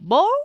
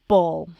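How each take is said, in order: First: The pitch rises at the end of the word. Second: The pitch starts high and falls. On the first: It sounds like a question. The speaker calls it wrong. "instead of ball or ball" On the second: It is a statement. The speaker calls it right. "I'll say ball"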